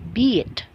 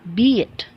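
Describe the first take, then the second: No difference in how they are said.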